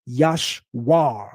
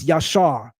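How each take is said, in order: First: A W sound is heard in the middle. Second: No W sound is heard in the middle. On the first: The letter would be read as a root consonant, changing the name's meaning. The speaker calls it wrong. "not Yashwar with a W" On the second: The letter only marks a vowel, keeping the intended meaning. The speaker calls it right. "It's Yashar"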